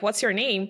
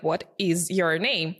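First: It is said casually with a Southern accent. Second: It is said carefully, every word clearly pronounced.

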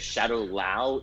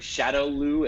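First: The last syllable sounds like 'lao'. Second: The last syllable sounds like 'loo'. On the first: The speaker calls it wrong. "mispronouncing Shadow Lu as Shadow Lao" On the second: The speaker calls it right. "Chris Klein mispronouncing Shadow Lu"

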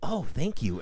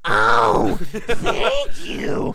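First: It is said in a plain, ordinary way. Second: It is said in a hugely exaggerated way.

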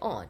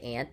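First: The word is said in a British way. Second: The word is said in a non-British way. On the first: "they say aunt" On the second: "they don't say aunt"

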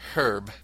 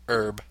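First: The word begins with an audible h sound. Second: The word begins without an h sound. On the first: This is the British way of saying it. "The H is always pronounced with the word herb" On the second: This is the American way of saying it. "in contrast to the American herb"

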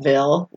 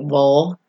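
First: It is said the Californian way, like vill. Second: It is said the Tennessee way, like vul.

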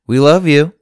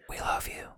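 First: It is said very loudly. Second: It is said at normal, quiet volume.

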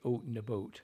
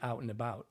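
First: The vowel is an exaggerated, rounded 'oot' sound. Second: The vowel is open, with a lower jaw. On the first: This is the stereotype actors fear, not their real speech. The speaker calls it wrong. "you don't say out and about" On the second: This is the neutral target pronunciation. The speaker calls it right. "I need you to say out and about"

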